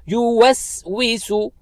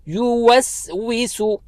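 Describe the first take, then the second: No difference in how they are said.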